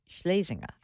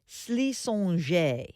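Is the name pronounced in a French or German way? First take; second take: German; French. First: The name is pronounced with a German-sounding shape. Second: The name is pronounced with a French-sounding twist. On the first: The speaker calls it right. "the real proper pronunciation is the German way" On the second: The speaker calls it wrong. "with a French twist"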